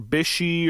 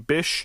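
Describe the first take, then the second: First: The name has two syllables, ending in 'ee'. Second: The name has one syllable, ending in 'sh'. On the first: The speaker calls it wrong. "you might hear people pronounce it Byshey or Bishy" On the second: The speaker calls it right. "I'm pretty sure that it's supposed to be Bysshe"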